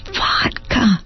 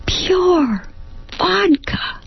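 First: Vodka said with mild surprise, higher and falling; name it as you sniff it; surprised discovery. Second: Pure vodka squeaked very high, vodka falling; shocked realisation. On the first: She sniffs Gladys's glass and names it with mild surprise. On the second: She realises the glass is pure vodka, squeaking very high. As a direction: let the shock leap up. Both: Acted.

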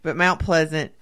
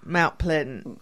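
First: "Mount Pleasant" with a clear z in pleasant; "Mount Pleasant" said the textbook way; standard pronunciation. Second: "Mount Pleasant" slow, pleasant as "pledn" like couldn't; local pronunciation. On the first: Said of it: "not Santa Fe". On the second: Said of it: "Like saying couldn't". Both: Shown as a demonstration.

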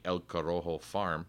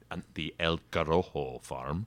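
First: Lightly Spanish-accented name within English. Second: Hammed-up Spanish accent on El Corojo. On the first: Real, not acted. Explaining where the seed was grown, light Spanish accent. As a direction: slip into Spanish pronunciation for El Corojo. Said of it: "Why do I do it with a Spanish accent?". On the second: Shown as a demonstration. Self-mockingly redoing the farm name, exaggerated Spanish accent. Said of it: "do it with a Spanish accent".

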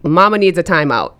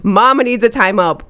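First: Said in the usual way. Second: Exasperated. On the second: Shown as a demonstration. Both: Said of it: "I know I'm about to lose it".

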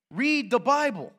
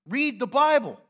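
First: Slow it down and press every word; slow emphatic command. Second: Emphatic command. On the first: Preacher to congregation, slow pressing command. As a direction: Read the Bible, slow, higher, each word weighted. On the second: Preacher urging the congregation, loud emphatic command. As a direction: Read the Bible pushed higher and louder, Bible hit hard. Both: Real, not acted. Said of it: "You have to read the Bible".

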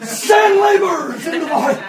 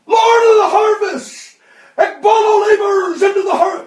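First: Loud, high cry with a laugh in it; laughing loud prayer. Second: High, loud pleading cry; loud, high desperate prayer; crying out to God. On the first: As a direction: shout the prayer through a chuckle. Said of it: "he didn't say ekbalo". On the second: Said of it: "begins to cry out to God". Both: Retold or imitated.

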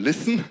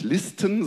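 First: Listen said as English listen, silent t, LISS-n; Listen englisch ausgesprochen wie hören; English word listen. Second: Listen said as the German word for lists, short i and a clear t; Listen wie das deutsche Wort für Listen. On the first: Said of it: "Es heißt nicht Listen". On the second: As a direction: say Listen the German way, LIS-ten. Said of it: "sondern Listen". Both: Shown as a demonstration.

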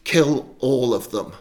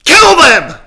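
First: Slower, louder, forceful command; yelled order. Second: All-out high, furious roar; louder roar. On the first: Saul commands his goons, yelled order. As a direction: press the order home, slowly and forcefully. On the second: Saul roars at goons who won't move, louder roar. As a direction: roar the order at the top of your voice. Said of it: "he roars louder". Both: Acted.

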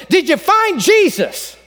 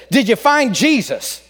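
First: Higher, slow, pressing preacher; a preacher's patience wearing thin; impatient preacher. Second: Said in the usual way. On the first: Retold or imitated. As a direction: lean on FIND, losing patience. Preacher asks again, growing impatient.

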